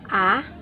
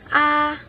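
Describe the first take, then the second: First: It is said with the second tone. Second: It is said with the high first tone. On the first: "第二声 second tone A" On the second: "First tone, or 第一声 A"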